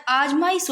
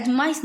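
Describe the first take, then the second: First: "आजमाइश" with long opening aa; corrected pronunciation. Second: "आजमाइश" with short opening a; rejected pronunciation. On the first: Teacher giving the correction, "आजमाइश" with long aa. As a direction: lengthen the first aa of "आजमाइश". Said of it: "आ लगता है". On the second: Teacher showing the error, "आजमाइश" with short a. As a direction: clip the first vowel of "आजमाइश". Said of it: "आजमाइश नहीं होता". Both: Shown as a demonstration.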